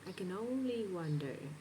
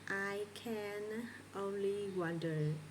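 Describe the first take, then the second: First: The word can is short and reduced. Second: The word can is full and clearly pronounced. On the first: The speaker calls it right. "So this word becomes reduced" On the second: The speaker calls it wrong. "as an English learner, might say"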